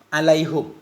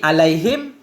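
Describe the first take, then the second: First: The h takes a u vowel; final m is bare. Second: The h takes an i vowel; final m is bare. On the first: "dhammahnya ha alaihu bersama sukun mim" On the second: "Mengkasrahkan ha alaihi ... bersama sukun mim"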